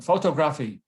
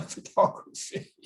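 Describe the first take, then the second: First: "photography" mispronounced as FOH-toh-GRAFF-ee; mispronounced "photography" with full vowels in photo and graphy; wrong stress on photography. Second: "photography" stressed on TOG, fuh-TOG-ruh-fee; "photography" with reduced first and third vowels; correct stress on photography. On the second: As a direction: punch the second syllable of "photography". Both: Shown as a demonstration. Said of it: "Stop saying geography and photography".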